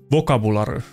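It is said with a strong Finnish accent.

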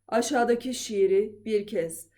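The voice is low, approaching bass. "Artık pese doğru iniyorum"

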